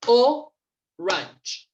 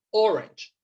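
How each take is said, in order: First: "Orange" broken in two, O, long pause, range; syllable by syllable. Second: Said in the usual way. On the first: Shown as a demonstration. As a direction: split "Orange" after a strong first O, then range. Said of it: "vamos a contarlas de esta manera". ("Orange" separado en dos sílabas: o, range) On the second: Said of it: "que acabamos de ver".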